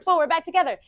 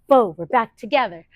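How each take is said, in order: First: It is said faster still. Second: It is said a little faster.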